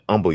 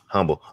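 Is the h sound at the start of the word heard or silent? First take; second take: silent; heard. First: The word begins without any h sound. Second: The word begins with an audible h sound. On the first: "like like without the H" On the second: "I agree with you right there"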